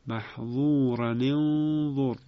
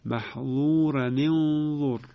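First: Slow محظورا انظر linked with a ni sound; Hafs reading repeated. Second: Slow محظورا انظر with kasra link, maḥẓūran-inẓur; Hafs reading. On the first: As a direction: repeat محظورا انظر slowly, ran-nin joining. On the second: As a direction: recite محظورا انظر slowly joining with ni. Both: Shown as a demonstration.

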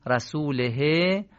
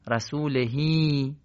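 First: "رسوله" slow, ending on a short e; short he as written. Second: "رسولهی" slow, with a long ee at the end; lengthened final ee. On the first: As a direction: say "رسوله" slowly with a short final e. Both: Shown as a demonstration.

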